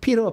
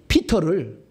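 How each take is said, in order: First: The middle consonant is a soft flap. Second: The middle consonant is a clear t. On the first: The speaker calls it wrong. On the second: The speaker calls it right.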